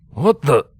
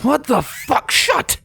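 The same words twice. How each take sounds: First: Louder, higher startled half-question. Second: Much higher, shocked outburst. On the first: Guard startled as light reveals the intruder. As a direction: blurt it out caught off guard. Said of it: "the startled guard". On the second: Comrade guard shocked seeing the intruder, yelping much higher. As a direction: yelp it in wide-eyed shock. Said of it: "eyes wide with surprise". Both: A narrator's reading.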